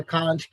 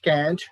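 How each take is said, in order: First: CAN'T with a long "ah"; British pronunciation. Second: CAN'T with a front "a"; American pronunciation. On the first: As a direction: say "can't" as "kahnt". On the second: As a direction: say "can't" with the vowel of cat. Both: Shown as a demonstration. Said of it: "write down these examples".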